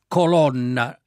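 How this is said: The stressed o is open, Roman style. This is how Romans usually say it. The speaker calls it wrong. "noi romani abbiamo questa bella pronuncia chiara, quindi, aperta"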